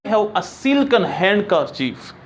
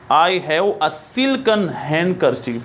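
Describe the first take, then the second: First: Slow, careful dictation; slow model sentence. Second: Slow, careful repeat of the model sentence. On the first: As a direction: read it out slowly word by word. (धीरे धीरे पढ़ा गया वाक्य) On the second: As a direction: say it again slowly for the class. (धीमा दोहराव) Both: Shown as a demonstration.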